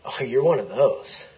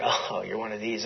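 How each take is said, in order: First: Half-laughing echo of the insult, rising at the end; mock retort. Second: Low, soft imitation of weary disdain; eye-rolling dismissal. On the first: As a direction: throw the dismissal back with amusement. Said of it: "And I went". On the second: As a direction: dismiss them with an audible eye-roll. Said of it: "he kinda rolled his eyes like".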